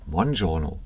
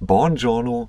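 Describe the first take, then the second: First: The word begins with an M sound. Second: The word begins with a B sound. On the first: The speaker calls it right. "guten Buongiorno mit M" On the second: The speaker calls it wrong. "nicht mit B"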